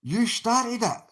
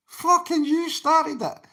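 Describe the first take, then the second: First: Said in the usual way. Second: Angry repeat. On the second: Real, not acted. Streamer snapping back at the viewer who started it, angry and high. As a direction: hammer it home, exasperated.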